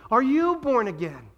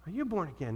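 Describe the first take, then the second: First: Loud, high, slow challenge; emphatic challenge. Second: Hushed, searching question; soft question. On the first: Preacher turning the tables on the congregation, loud emphatic challenge. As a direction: press the question forcefully on the listener. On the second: Preacher asking the congregation not to answer aloud, soft question. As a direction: ask it softly, for private reflection. Same question repeated softly, for reflection. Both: Real, not acted.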